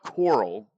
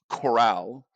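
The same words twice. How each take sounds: First: It is said like the sea creature 'coral'. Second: It is said like 'corral', as in OK Corral. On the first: The speaker calls it wrong. "It's not coral" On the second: The speaker calls it right. "it's Coral"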